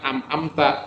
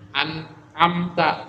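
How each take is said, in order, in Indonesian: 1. Suku kata pertama berakhir dengan bunyi m. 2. Suku kata pertama berakhir dengan bunyi n. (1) "bukan am-amta" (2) "makhraj hurufnya harus diperhatikan"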